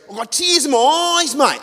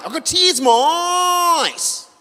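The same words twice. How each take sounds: First: Much higher, louder, choked-up bloke voice; teary trucker fan. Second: Much higher, slow, drawn-out shout; teary trucker shouting. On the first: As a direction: overcome trucker gushing down the phone. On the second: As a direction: bellow it slowly like he's overwhelmed. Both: Retold or imitated. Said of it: "And he goes".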